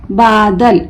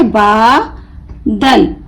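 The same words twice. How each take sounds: First: Said in the usual way. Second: बा held long, pause, then दल; broken into syllables. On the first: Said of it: "मिलाकर पढ़ें". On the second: Shown as a demonstration. Teacher showing how to split the word, बा and दल apart. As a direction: say बा... दल as two separate pieces. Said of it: "तोड़ तोड़ कर पढ़ूंगी".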